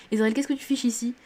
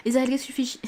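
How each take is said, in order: First: Said in the usual way. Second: « ici » raté, glissant vers « ichi »; langue qui fourche. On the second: Real, not acted. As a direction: buter sur « ici » avec un chuintement. (« ici » bafouillé en fin de question) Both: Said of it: "Je sais pas parler".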